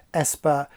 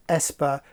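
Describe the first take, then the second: No difference in how they are said.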